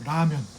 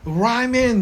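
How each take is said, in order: First: It is said with a native Korean pronunciation. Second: It is said with an American-style pronunciation. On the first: This is how people say it now. "지금은 그냥 라면이라 그래요" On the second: This is how Americans used to say it. "라멘 막 이런 식으로 발음을 했다는 거죠"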